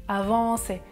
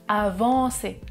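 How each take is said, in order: The two takes are said the same way.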